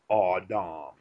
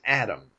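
First: The first vowel is a rounded aw sound. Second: The first vowel is a plain a sound. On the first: The speaker calls it wrong. "It's not aw dom" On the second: The speaker calls it right. "It's Adam"

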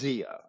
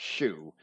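First: The word begins with an English letter-based sound. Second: The word begins with an 'sh' sound. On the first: "the way we pronounce X-I-A" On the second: "I don't care if it's pronounced Shu"

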